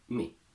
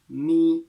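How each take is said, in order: First: The word is said with a reduced vowel. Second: The word is said with a full vowel.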